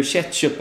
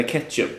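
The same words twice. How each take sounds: First: "ketchup" starting with a tje-sound; soft tje-sound. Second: "ketchup" starting with hard k. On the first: Guest offering first option, soft tje in "ketchup". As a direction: say "ketchup" like "tjetchup". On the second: Guest offering second option, hard K in "ketchup". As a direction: say "ketchup" with a plain K. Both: Shown as a demonstration. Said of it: "Säger du ketchup eller ketchup".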